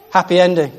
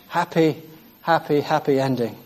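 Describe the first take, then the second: First: Said in the usual way. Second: Softer, savoring repeat of happy ending. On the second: Shown as a demonstration. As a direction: say happy happy ending softly, like a fond sigh.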